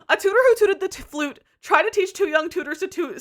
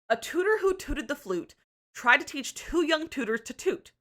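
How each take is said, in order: First: It is said quickly, at a faster pace. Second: It is said at an ordinary, unhurried pace.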